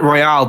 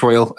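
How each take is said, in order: First: Royale with a full open "al" ending; Royale French-style. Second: Royal rhyming with loyal; Royal as English word. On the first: Co-host admitting his habit, Royale said as roy-AL. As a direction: say Royale as roy-AL, not like loyal. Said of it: "I've been pronouncing it Royale". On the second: Co-host settling on the game's title, Royal said like loyal. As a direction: say Royal with a weak second syllable. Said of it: "I think it is Royal". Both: Shown as a demonstration.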